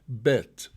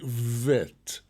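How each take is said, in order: First: The first consonant is a hard plosive b. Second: The first consonant is a soft v sound. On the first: The letter has a dot in its middle. "it has a hard pronunciation. It's a plosive bet" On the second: The letter has no dot in its middle. "if there is no dagesh, it is pronounced as a vet"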